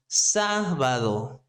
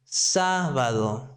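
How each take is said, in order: The two takes are said the same way.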